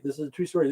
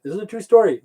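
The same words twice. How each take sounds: First: Said in the usual way. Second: This is a true STORY, higher and louder; emphatic true story. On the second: Shown as a demonstration. Telling the guys his tale is true, louder and higher. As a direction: insist on it, pushing the word story.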